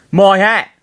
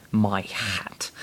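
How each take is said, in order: First: Loud, high Cockney cry; Cockney yell. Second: Said in the usual way. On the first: A narrator's reading. Ness watching the hat burn, Cockney yell. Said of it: "Ness yelled". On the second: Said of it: "Cockney accent isn't very conducive to saying".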